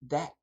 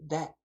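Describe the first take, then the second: Both takes have the same delivery.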